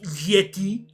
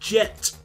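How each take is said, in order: First: The name begins with a Y sound. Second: The name begins with a J sound. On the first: The speaker calls it right. "actually it's pronounced Yeti" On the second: The speaker calls it wrong. "which I feel like I'm pronouncing incorrectly"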